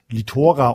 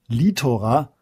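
First: The stress is on the second syllable. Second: The stress is on the first syllable. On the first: The speaker calls it wrong. "Man sagt dann nicht litora" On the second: The speaker calls it right. "das auf der ersten langen Silbe betont ist"

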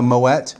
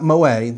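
First: The final T sound is pronounced. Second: The final T sound is silent. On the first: The speaker calls it right. "The umlaut over the E's means you pronounce the T" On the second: The speaker calls it wrong. "It's not Moet"

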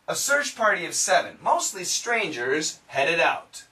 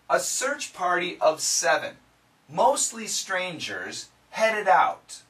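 First: The sentence is read at a quick pace. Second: The sentence is read at a slow pace.

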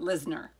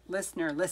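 First: The first syllable uses a buzzing z sound. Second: The first syllable uses a hissing s sound. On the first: The speaker calls it wrong. "not listener. It's not a lizard" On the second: The speaker calls it right. "you pronounce listener"

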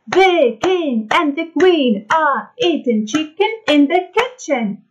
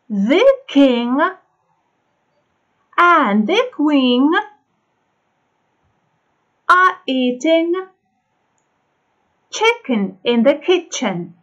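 First: It is said at the fastest pace. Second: It is said at a slow pace.

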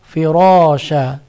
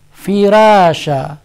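First: The r is pronounced thick and heavy. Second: The r is pronounced thin and light. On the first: "yaitu menebalkan huruf ra" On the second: "yaitu membaca dengan nipis huruf ra"

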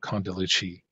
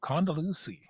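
First: The last 'c' is said as 'ch'. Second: The last 'c' is said as 's'. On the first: The speaker calls it wrong. "I've been saying Condeluci this whole time with a ch" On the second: The speaker calls it right. "if it's one C, it's a s sound. So"

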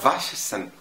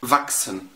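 First: The middle consonants sound like sh plus s. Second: The middle consonants sound like ks. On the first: The speaker calls it wrong. "ما قلت له بقى" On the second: The speaker calls it right. "تنطقها معاك على انها اكس"

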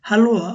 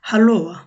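No difference in how they are said.

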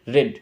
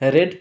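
Both takes have the same delivery.

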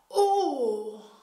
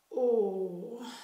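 First: The exclamation sounds sudden and startled. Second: The exclamation sounds sad and disappointed. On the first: Something came as a fright. "erschrak ich, weil es schon spät war" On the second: Something is a pity. "wenn wir etwas schade finden"

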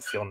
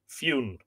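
First: The vowel does not rhyme with tune. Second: The vowel rhymes with the word tune. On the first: The speaker calls it right. "that is not how Fionn is pronounced" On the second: The speaker calls it wrong. "F-E-W-N, to rhyme with tune"

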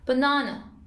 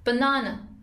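The two takes are said the same way.

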